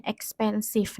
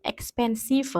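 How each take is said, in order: First: "expensive" ending on the consonant, silent final e; correct reading. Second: "expensive" with the written final e sounded after the v; read as spelled. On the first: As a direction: say "expensive" as ex-pen-siv. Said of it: "itu bacanya expensive". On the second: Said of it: "Meskipun tulisannya expensive". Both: Shown as a demonstration.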